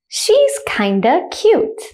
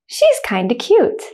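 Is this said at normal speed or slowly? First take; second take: slowly; normal speed. First: The sentence is said slowly. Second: The sentence is said at normal speed. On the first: "The first time I'll say it slowly" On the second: "the second time I'll say it at a normal speed, like a native speaker"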